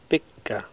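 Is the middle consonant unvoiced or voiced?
unvoiced. The middle consonant is long and unvoiced. "In Icelandic, they're unvoiced"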